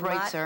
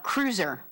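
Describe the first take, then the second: First: The name sounds different from the word cruiser. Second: The name sounds exactly like the word cruiser. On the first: The speaker calls it wrong. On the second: The speaker calls it right. "like the Land Cruiser, like a Toyota"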